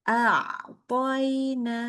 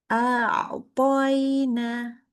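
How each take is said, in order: Both takes have the same delivery.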